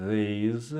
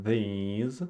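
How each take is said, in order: The two takes are said the same way.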